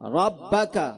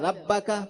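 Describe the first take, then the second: First: The r sound is heavy and full. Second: The r sound is light and thin. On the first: The speaker calls it right. "रा को पुर पढ़ा जाता है" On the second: The speaker calls it wrong. "उसने बारीक पढ़ दिया"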